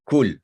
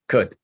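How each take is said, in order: First: The vowel is a long 'oo' sound. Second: The vowel is a short 'uh' sound. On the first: The speaker calls it wrong. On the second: The speaker calls it right.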